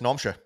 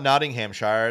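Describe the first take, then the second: First: The syllables are squashed together into a short name. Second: Every syllable of the name is said in full. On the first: The speaker calls it right. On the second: The speaker calls it wrong. "It's not"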